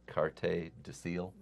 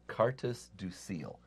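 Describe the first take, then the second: First: The S at the end of Cartes is silent. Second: The S at the end of Cartes is pronounced. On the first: The speaker calls it right. "the S is silent in French" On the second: The speaker calls it wrong. "I shouldn't pronounce the S at the end"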